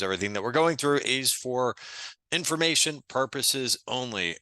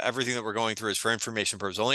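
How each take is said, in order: First: Measured restatement, with a pause before "information"; deliberate disclaimer. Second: Rattled off fast in one run; rapid-fire disclaimer. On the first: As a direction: spell out the disclaimer for emphasis. Same disclaimer repeated for emphasis. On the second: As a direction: race through the legal small print. Disclaimer rattled off, then repeated deliberately. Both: Real, not acted.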